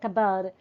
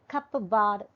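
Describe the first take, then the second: First: One sound in the word is left out. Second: Every written sound in the word is pronounced. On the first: The speaker calls it right. "so an elision is happening there" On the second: The speaker calls it wrong. "It is not cupboard"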